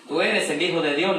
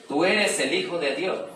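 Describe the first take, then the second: First: Demons crying out. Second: Loud, slow, higher outcry of demons; demons crying out. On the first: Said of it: "le dijeron los demonios". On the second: Preacher voicing the demons who cry out to Jesus, loud and slow. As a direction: let the demons shout it out, drawn slow. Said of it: "dando voces". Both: A narrator's reading.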